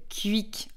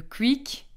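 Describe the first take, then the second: First: "quick" said as "kü-ik"; "quick" with French u-glide instead of w; French pronunciation. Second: "quick" said as "kwik"; "quick" with a w after the k; Belgian pronunciation. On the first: Teacher showing how France says quick, "kü-ik". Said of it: "qu'on va prononcer le quick en France". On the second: Teacher naming the fast-food chain, quick pronounced "kwik". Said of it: "Même problème". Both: Shown as a demonstration.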